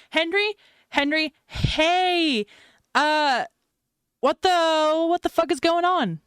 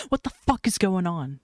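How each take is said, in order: First: High, loud frantic demand; rising panic, pitched way up; panicked. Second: Dropped back to natural pitch, firm; exasperated, no more joking; blunt demand. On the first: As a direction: shout down the phone, desperate for an answer. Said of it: "Mad panics". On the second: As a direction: drop the act and demand an answer. Banter drops into a blunt demand. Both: Acted.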